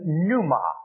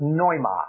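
First: It is said with an English pronunciation. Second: It is said with a Greek pronunciation. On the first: "in our English pronunciation" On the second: "The Greek would pronounce it"

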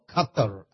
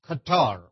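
First: The name is said with a local Arabic-style pronunciation. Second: The name is said with an English-style pronunciation.

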